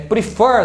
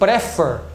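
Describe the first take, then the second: First: The stress is on the second syllable. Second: The stress is on the first syllable. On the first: The speaker calls it right. "se você não souber que a palavra prefer é prefer" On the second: The speaker calls it wrong. "se você achar que for prefer, não dobraria"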